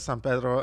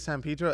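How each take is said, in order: First: It is pronounced the way outsiders say it. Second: It is pronounced the way locals say it. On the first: The speaker is not from the area. The speaker calls it wrong. "everybody else who doesn't know what the fuck's going on says" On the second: The speaker is from the area. The speaker calls it right. "Everybody who's from and around the area calls it"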